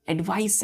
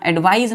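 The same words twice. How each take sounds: First: "एडवाइस" ending in a hissed s, as in "advice"; hissing s ending. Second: "एडवाइस" said as English "advise", with a z sound; wrong form, voiced ending. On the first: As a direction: finish "एडवाइस" on an unvoiced s sound. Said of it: "hissing sound है". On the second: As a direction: end "एडवाइस" on a buzzing z. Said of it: "यहाँ एडवाइस नहीं है, S E नहीं है". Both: Shown as a demonstration.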